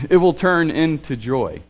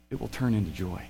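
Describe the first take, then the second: First: Slower, brighter with a laugh; laughing joy. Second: Soft, low and quiet; almost breathe it; hushed promise. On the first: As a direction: let joy break through. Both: Acted.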